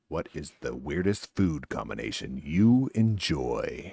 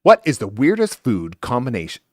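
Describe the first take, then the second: First: Slow, low, lower announcer read. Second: Said in the usual way. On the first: Shown as a demonstration. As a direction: read it like a show host. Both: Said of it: "let me try it again".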